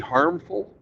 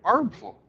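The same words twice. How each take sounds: First: The word starts with an audible H sound. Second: The word starts without any H sound. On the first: The speaker calls it right. "when you say harmful" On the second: The speaker calls it wrong. "the H is silent when you say it"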